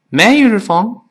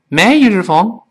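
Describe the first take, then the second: The two takes are said the same way.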